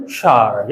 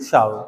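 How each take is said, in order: First: "shower" as one syllable, "shaar"; variant pronunciation. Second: "shower" in two syllables, "sha-ver"; variant pronunciation. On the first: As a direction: say "shower" without the w glide, as "shaar". ("shower" को "शार" बोलें) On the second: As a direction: say "shower" with a clear v glide. ("shower" को "शावर" बोलें) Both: Shown as a demonstration. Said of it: "या शावर बोलते हैं या शावर बोलते हैं".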